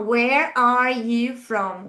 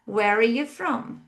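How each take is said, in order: First: The words are said separately, without linking. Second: The words are linked together in connected speech. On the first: "Eu poderia falar" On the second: "isso me permite já pronunciar"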